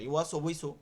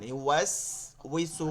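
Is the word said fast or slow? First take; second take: fast; slow. First: The word is said quickly and hurriedly. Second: The word is said slowly and carefully. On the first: The speaker calls it wrong. "যখনই তাড়াহুড়ো করবেন ইওয়াস ওয়াইসু এরকম হয়ে যাবে" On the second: The speaker calls it right. "তো ধীরে ধীরে পড়বেন"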